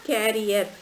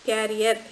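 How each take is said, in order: Both takes have the same delivery.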